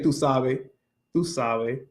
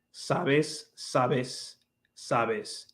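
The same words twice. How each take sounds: First: "tú sabes" said "tú sabe", final s dropped. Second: "sabes" with a long, clear hissed s at the end; final s sounded. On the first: Showing a friend her habit: "tú sabe" without the s. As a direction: drop the last s of "sabes", Dominican-style. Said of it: "I'm so used to saying". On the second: Teaching a friend the neutral "sabes", final s held. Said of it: "instead of saying". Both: Shown as a demonstration.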